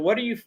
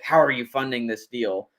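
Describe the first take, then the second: First: It sounds light and easygoing. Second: It sounds blunt and demanding.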